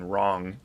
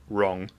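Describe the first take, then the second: First: The word is said in an American accent. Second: The word is said in an English accent. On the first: "the American wrong" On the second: "wrong in England"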